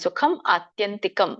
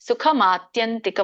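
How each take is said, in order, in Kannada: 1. ಈ ಎರಡು ಪದಗಳನ್ನು ಬೇರೆ ಬೇರೆಯಾಗಿ, ಸೇರಿಸದೆ ಹೇಳಲಾಗುತ್ತದೆ. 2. ಈ ಎರಡು ಪದಗಳನ್ನು ಸೇರಿಸಿ ಒಂದೇ ಪದದಂತೆ ಹೇಳಲಾಗುತ್ತದೆ. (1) "ಬಿಡಿಸಿದಾಗ" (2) "ನೀವು ಕೂಡಿ ಹೇಳ್ಬೋದು"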